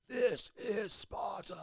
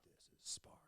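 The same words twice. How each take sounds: First: It is said loudly with intense energy. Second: It is said in a low, subdued voice. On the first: "it's such an intense moment. I thought, you know, I'm going to say it like this" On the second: "the original takes were him saying it like in a low"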